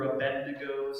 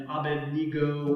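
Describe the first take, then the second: First: Abednego with the stress on BED; alternate pronunciation. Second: Abednego with a long NEE in the middle; alternate pronunciation. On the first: Preacher offering a name's variants, Abednego as a-BED-ne-go. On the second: Preacher offering a name's variants, Abednego as a-bed-NEE-go. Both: Shown as a demonstration. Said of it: "depending on how you want to pronounce it".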